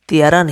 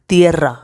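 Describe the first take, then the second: First: The r is a soft single tap. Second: The r is strongly rolled. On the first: The speaker calls it wrong. "तियरा नहीं" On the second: The speaker calls it right. "दो आर है"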